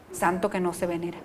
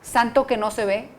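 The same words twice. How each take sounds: First: "santo" más grave y suave, cae al final; cierre suave. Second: "Santo" marcado, final que sube; refrán enfático. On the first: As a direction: remata el refrán en voz baja. ("santo" dicho grave y suave como cierre) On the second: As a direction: abre el refrán subiendo. ("Santo" acentuado y tono ascendente) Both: Shown as a demonstration.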